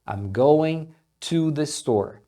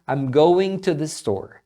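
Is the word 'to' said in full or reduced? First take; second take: full; reduced. First: The word 'to' is said in full, unhurried. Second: The word 'to' is shortened to a quick 't'. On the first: "falando mais pausado ou dando mais ênfase no to, você vai ouvir dessa forma, to" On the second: "na fala mais rápida esse to sendo pronunciado como um t, bem rapidinho"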